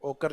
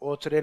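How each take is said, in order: First: The middle consonant is a hard k sound. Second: The middle consonant is a ch sound. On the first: The speaker calls it right. "इसको ओकर लिखा जाता है" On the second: The speaker calls it wrong. "ओचरे नहीं बोलना है"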